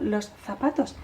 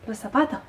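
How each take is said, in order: First: The final S sound is clearly pronounced. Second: The final S sound is aspirated or dropped. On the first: "están diciendo los zapatos" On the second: "y la S final no la tienen"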